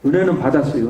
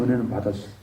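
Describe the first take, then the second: First: Said in the usual way. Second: "은혜는 받았어요" repeated much lower and softer; quiet echo. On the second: Real, not acted. Man quietly affirming to himself that he received grace, "은혜는 받았어요" softly.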